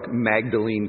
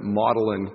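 First: The name is pronounced as it is spelled. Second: The name is pronounced the local way. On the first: The speaker calls it wrong. "It looks like Magdalene College" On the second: The speaker calls it right. "they pronounce it Magdalene College"

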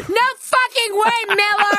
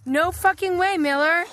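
First: It is shouted loudly, as if in caps. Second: It is said at a normal volume.

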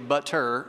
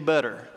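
First: The middle consonant is a crisp T sound. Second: The middle consonant is a soft D sound. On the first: "we don't say butter" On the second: "we change the T's to D's and we say butter"

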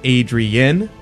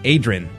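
First: The name is said in full, every syllable sounded. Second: The name is said shortened, with fewer syllables. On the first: The speaker calls it right. "instead of Adrian" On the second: The speaker calls it wrong. "I mispronounce my own name"

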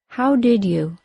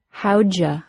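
First: All three words are said fully and separately. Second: D and Y merge into J; you becomes ya.

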